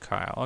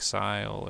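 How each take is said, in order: First: The name begins with a K sound. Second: The name begins with an S sound. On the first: The speaker calls it right. "so it's just Kyle" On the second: The speaker calls it wrong. "if there's a vowel after the a C, then it makes an S sound"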